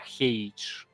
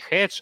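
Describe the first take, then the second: First: The vowel glides from e to y. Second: The vowel is a plain short e. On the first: The speaker calls it right. "а хейдж" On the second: The speaker calls it wrong. "Не хедж"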